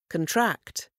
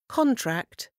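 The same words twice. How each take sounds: First: The stress is on the second syllable. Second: The stress is on the first syllable. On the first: It is a verb. "Quand le même mot est accentué sur la deuxième, c'est un verbe" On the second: It is a noun. "Quand le mot est accentué sur la première syllabe, c'est un nom"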